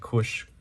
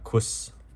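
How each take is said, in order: First: The name ends with an sh sound. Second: The name ends with a plain s sound. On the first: The speaker calls it right. "but these are the Kush comics" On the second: The speaker calls it wrong. "I think I was pronouncing it incorrect"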